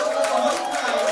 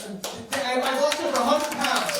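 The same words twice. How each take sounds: First: Much higher and louder, bragging the number; emphatic yell. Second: Said in the usual way. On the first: Acted. Comic boasting about weight loss, shouted. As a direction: shout the hundred pounds proudly.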